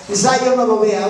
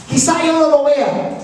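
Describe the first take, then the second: First: Yo given the main weight, pitch lower; quizá yo no lo vea with gentle weight on yo; stress on yo. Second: No slightly stressed and falling; quizá yo no lo vea with mild weight on no. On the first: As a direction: lean on the word yo, not no. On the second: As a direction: lean a little on the word no. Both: Shown as a demonstration.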